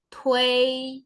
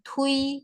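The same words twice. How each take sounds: First: A short e sound slips between u and i. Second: The u glides straight into i, with no e. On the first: The speaker calls it right. "ui ini ada selipan e-nya kalau dibaca" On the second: The speaker calls it wrong. "bukan tui"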